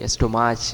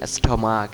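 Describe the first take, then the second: First: The word ends with a 'ch' sound. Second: The word ends with a 'k' sound. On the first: The speaker calls it wrong. "অ্যাস্ট্রোমাচ বলি অনেকেই" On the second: The speaker calls it right. "হবে কি উচ্চারণ? অ্যাস্টমাক"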